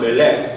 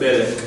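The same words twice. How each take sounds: First: The stress is on the last syllable. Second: The stress is on the first syllable. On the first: The speaker calls it wrong. "not melech" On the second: The speaker calls it right. "but melech"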